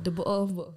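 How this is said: It is said in a British accent with dropped t sounds.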